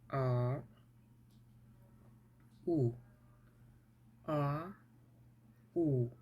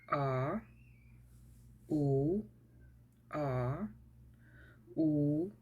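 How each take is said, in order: Both takes have the same delivery.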